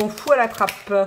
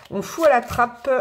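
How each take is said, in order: First: Said in the usual way. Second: Slower, insistent "On fout à la trappe", lightly stressed; slow emphatic repeat. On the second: Shown as a demonstration. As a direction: hammer home "On fout à la trappe" word by word.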